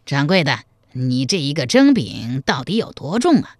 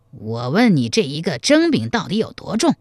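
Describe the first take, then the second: First: Lightly voiced scholar challenging a shopkeeper; mildly acted question, opening a complaint; slightly hoarse scholar. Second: Scholar pressing the point, mildly impatient; insistent repeated question. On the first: Scholar questions shopkeeper over the steamed cake's weight, lightly hoarse. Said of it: "声音略微有些嘶哑，还有点儿尖". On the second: Scholar asks shopkeeper a second time about weight, mildly insistent. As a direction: repeat the demand a little more firmly. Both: A narrator's reading.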